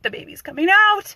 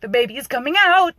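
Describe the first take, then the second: First: Much higher, loud panicked wail; imitating rising panic. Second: Higher and louder panicked cry; imitating panic. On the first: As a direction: push the panic to the top of the voice. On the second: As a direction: play the frightened mother in labour. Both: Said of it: "she is panicking".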